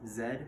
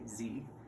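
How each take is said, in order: First: The letter is said as zed. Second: The letter is said as zee. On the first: This is the Canadian way of naming the letter. "Canada is very big on is saying the letter Z as Z" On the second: This is the American way of naming the letter. "as we Americans say Z"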